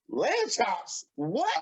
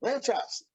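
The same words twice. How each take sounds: First: Lamb chops vragend en ongelovig; ongelovige vraag. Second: Said in the usual way. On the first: Retold or imitated. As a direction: herhaal Lamb chops alsof je het niet gelooft.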